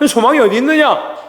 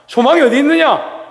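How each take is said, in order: First: 있느냐 ending in a falling tone, voice lifted high; preacher's question pitched well above his speaking voice, falling on 있느냐; raised rhetorical question. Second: 소망이 pushed up very high, voice changed, falling at the end; repeating the question to the church, pitched far higher and with a changed voice; even higher repeat. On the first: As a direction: ask 소망이 어디 있느냐 with the pitch raised and a fall on 있느냐. Pastor repeats the rhetorical question. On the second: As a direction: call 소망이 어디 있느냐 out much higher, leaning on 소망이. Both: Shown as a demonstration.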